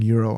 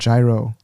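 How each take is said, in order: First: The word begins with a Y sound. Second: The word begins with a J sound. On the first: "some people call them Euro" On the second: "like the gyro"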